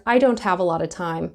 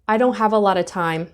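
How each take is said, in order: First: The t in don't is pronounced. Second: The t in don't is dropped. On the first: "But you might also hear" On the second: "you may not hear that t"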